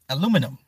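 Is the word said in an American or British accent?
American. It is said in an American accent.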